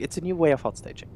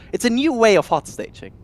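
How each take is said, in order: First: Dramatic trailer-title read; video title voice. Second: Said in the usual way. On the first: Shown as a demonstration. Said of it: "That's a, that's a video title there, like, in curved letters". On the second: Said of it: "That's a, that's a video title there".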